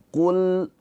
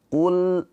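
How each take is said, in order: Both takes have the same delivery.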